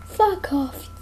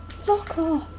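Both takes have the same delivery.

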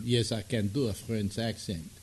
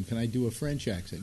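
First: Put-on French accent. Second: Said in the usual way. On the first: Shown as a demonstration. Host testing his old skill, French accent. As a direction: answer yourself in a mock French accent. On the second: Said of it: "I don't know if I can still do them".

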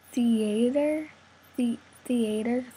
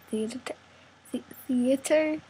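No difference in how they are said.

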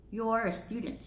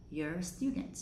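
First: "You're" with a rounded "yor" vowel; full you're. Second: "you're" weakened to "yer"; reduced you're. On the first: Teacher showing the first way, "You're" as "yor". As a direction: say "You're" just like possessive your. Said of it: "Cách đầu tiên mình đọc là your". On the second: Teacher showing the second way, "you're" as "yer". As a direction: say "you're" with a schwa vowel. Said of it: "Cách thứ hai mình đọc thành âm ear". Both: Shown as a demonstration.

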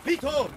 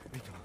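First: Desperate high call; anguished call. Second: Said in the usual way. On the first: Acted. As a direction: cry his name out loud and high. Calling out to dying Vito.

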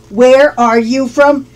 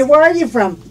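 First: Slow, careful teacher's question; deliberate, drawn-out "Where are you from"; slow model. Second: Said in the usual way. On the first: Shown as a demonstration. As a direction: stretch out each word for learners. Teacher repeats question slowly for learners.

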